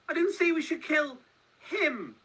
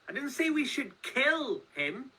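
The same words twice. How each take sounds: First: The stress is on "him". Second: The stress is on "kill".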